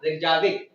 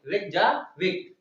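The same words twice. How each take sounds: First: Said in the usual way. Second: Reykjavik slowly in two parts, रेकजा, pause, विक; split for memorising. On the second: Shown as a demonstration. Teacher linking rickshaw to the capital, Reykjavik slowly split before विक. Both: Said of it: "rickshaw से क्या पढ़ेंगे आप".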